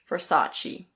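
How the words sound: It is said in American English, sounding the R. "In American English, you pronounce the R"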